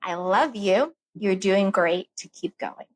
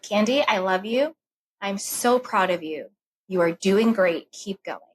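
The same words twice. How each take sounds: First: Tender reassurance to sister. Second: Tender self-talk. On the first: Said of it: "what I said to her was". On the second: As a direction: speak to yourself like a loving friend. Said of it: "I said that to myself". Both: Retold or imitated.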